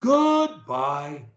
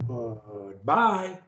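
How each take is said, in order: First: GOODBYE with GOOD held high, BYE dropping; start up high. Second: GOODBYE from a soft, low, drawn-out GOOD, jumping up on BYE; start low. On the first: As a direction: pitch GOOD up out of the usual register. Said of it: "you start up high". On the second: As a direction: begin deep, then leap up. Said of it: "either high or low". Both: Shown as a demonstration.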